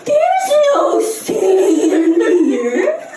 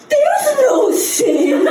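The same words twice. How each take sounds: First: Very slow, drawn out, rising; slower mock dad. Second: Slow, drawn-out incredulity; imitating dad in disbelief; incredulous dad, mock. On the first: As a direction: stretch out the disbelief.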